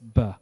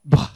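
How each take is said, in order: First: The B is said plainly, without a puff. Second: The B is said with a strong puff of air. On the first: "Instead of just B" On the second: "it's B, like that"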